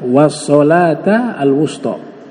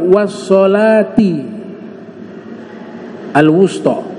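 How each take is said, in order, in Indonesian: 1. Kata sholat berakhir dengan vokal 'a'. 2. Kata sholat berakhir dengan vokal 'i'. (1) "dengan bentuk nasab fathah" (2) "bacanya biljer, kasroh"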